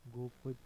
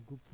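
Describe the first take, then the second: First: गोपत with o and a; wrong form. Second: गुप्त with u and joined pt; correct form. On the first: Teacher showing learners the mistake, गोपत as go-pat. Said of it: "ने". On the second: Teacher giving the correction, गुप्त in one beat. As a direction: say गुप्त as gupt. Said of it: "होता है". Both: Shown as a demonstration.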